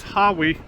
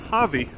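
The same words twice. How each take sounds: First: Hawi with a W sound, HAH-wee; W pronunciation. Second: Hawi with a V sound, HAH-vee; V pronunciation. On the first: Rider showing how the town is said, Hawi pronounced with a W. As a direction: say Hawi with a rounded W. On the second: Rider showing how the town is said, Hawi pronounced with a V. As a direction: say Hawi with V in place of W. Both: Shown as a demonstration. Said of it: "everybody pronounces".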